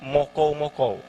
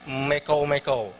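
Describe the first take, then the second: First: The first vowel is a rounded o sound. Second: The first vowel is a mid e sound. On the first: This is the Malinau dialect form. "Malinau dia lebih ke mokou-mokou" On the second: This is the Sesayap dialect form. "Kalau di Sesayap itu mekou-mekou"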